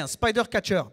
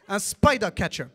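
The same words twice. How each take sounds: First: It is said with a heavy French accent. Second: It is said with an English-sounding accent.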